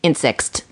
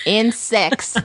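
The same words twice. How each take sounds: First: Said in the usual way. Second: "Insects" said higher through a laugh. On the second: Real, not acted. Repeats the quoted word, laughing.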